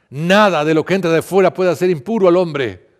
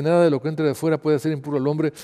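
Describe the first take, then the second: First: Loud, high proclamation; public proclamation. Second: Moderately raised pitch, reproving question; explanatory questioning. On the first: Jesus teaching the people he called, loud proclamation. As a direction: proclaim it to the whole crowd. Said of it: "llamó a la gente y dijo". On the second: Jesus questioning his puzzled disciples, explanatory questioning. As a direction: explain it as a pointed question, without proclaiming. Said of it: "los discípulos le preguntaron sobre esta enseñanza". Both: A narrator's reading.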